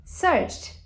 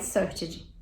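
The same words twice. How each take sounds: First: "searched" as one syllable with a crisp final T; correct ED pronunciation. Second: "searched" in two syllables, search-ed; mispronounced ED. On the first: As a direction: say "searched" high and falling, ending in a T sound. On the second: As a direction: say "searched" wrongly with an extra "ed-jee" syllable. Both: Shown as a demonstration. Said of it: "Nunca mais searched".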